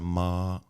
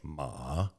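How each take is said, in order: First: The pitch stays level and flat. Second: The pitch dips down then comes up. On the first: "flat sound ma" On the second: "The third tone is dipping ma"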